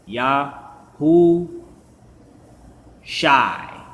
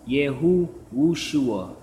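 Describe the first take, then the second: First: It starts with 'yah' and has no 'w' sound. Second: It starts with 'yeh' and has a 'w' sound. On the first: The speaker calls it right. "This how you say it" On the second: The speaker calls it wrong. "they don't sound right"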